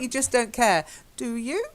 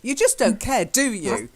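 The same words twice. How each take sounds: First: It sounds like a genuine, neutral question. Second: It sounds nasty and accusing, like a statement. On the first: The speaker really wants an answer. The speaker calls it wrong. "So it's not" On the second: The speaker is accusing, not asking. The speaker calls it right. "It's more of an attack. ... it's really nasty"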